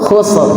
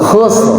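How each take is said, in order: The two takes are said the same way.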